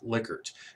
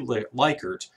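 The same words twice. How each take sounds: First: The first syllable sounds like 'lick'. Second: The first syllable sounds like 'like'. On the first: The speaker calls it right. "it is actually pronounced" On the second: The speaker calls it wrong. "it looks like it should be"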